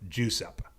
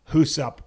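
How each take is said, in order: First: The name begins with a J sound. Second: The name begins with an H sound. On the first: "the J that's like ja" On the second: "the J that's like ha"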